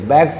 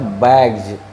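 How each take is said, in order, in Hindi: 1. शब्द का अंत s ध्वनि से होता है। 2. शब्द का अंत z ध्वनि से होता है। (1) "बैग्स नहीं बोलना चाहिए" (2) "उच्चारण हो जाएगा इसका बैग्स"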